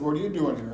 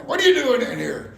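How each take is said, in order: First: Said in the usual way. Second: Big man's loud, high-pitched yell; yelled challenge. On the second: Retold or imitated. Factory boss confronts a stranger, yelling. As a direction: holler it at an intruder. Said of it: "he starts yelling".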